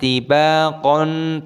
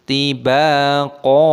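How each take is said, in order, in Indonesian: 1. Kata ini diakhiri dengan bunyi n. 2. Kata ini diakhiri dengan vokal panjang. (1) "bukan tibaqon" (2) "qafnya dibaca panjang"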